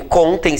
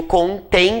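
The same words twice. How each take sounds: First: "contem" stressed on CON; without accent. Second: "contém" stressed on TÉM; with accent. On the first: Teacher contrasts the form of contar, stress on CON. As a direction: say "contem" as CON-tem, first syllable strong. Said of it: "sem acento, que é do verbo contar". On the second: Teacher contrasts the form of conter, stress on TÉM. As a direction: say "contém" as con-TÉM, last syllable strong. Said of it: "com acento, que é do verbo conter". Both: Shown as a demonstration.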